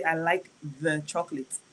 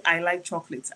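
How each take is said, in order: First: The wrong "the" said quietly and dismissively; softer, offering "the chocolate" as the wrong form; quiet example of the wrong form; wrong version, softly. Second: Said in the usual way. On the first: Shown as a demonstration. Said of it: "I wouldn't say". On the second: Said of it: "I would just say".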